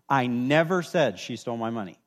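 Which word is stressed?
never. The stress is on "never".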